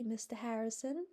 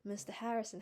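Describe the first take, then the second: First: "Mister Harrison" with a pleading rise at the end; mournful plea. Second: Said in the usual way. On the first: A narrator's reading. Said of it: "she mourned".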